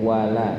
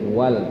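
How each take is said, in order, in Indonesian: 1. Huruf l langsung bertemu vokal a. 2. Huruf l tertutup, tidak ada vokal setelahnya. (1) "tapi wala" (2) "bukan lagi wal"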